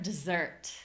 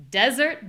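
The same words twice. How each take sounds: First: "dessert" with the weight on SERT; weak "de", longer "ssert"; "dessert" stressed at the back; second-syllable stress. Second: "desert" with a high, loud DES; "desert" stressed at the front; first-syllable stress. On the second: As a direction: punch DES high, let "ert" drop. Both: Shown as a demonstration. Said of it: "only difference really is the stress".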